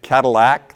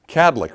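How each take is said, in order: First: The name is said with three syllables. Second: The name is said with two syllables. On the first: The speaker calls it wrong. "a third syllable dropped in to make it Cadillac" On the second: The speaker calls it right. "Two syllables"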